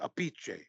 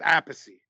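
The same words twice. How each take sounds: First: The name is said in an Italian way. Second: The name is said in an Americanized way. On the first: This is how the old-country relatives say it. "The way that the like grandfather and off the boat do" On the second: This is how one family member says it. "[name] says it Appice"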